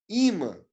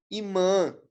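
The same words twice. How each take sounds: First: Imã said Í-mã, first syllable stressed; correct first-syllable stress. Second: Imã stressed on the last syllable, i-MÃ; wrong final stress. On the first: Teacher correcting for students, first-syllable stress on imã. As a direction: hit the I of imã, let MÃ fall. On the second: Teacher trying the wrong option, final stress on Imã. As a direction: lean on the nasal MÃ of Imã. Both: Shown as a demonstration. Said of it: "A sílaba tônica não é nasal".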